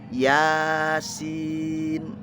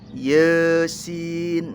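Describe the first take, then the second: First: The first vowel is an open 'a'. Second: The first vowel sounds like 'e'. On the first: The speaker calls it right. "Sebetulnya kan diangkat lisan kita, fathah kebuka" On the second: The speaker calls it wrong. "orang Madura itu yang kepelintir dalam ngucapin harokat"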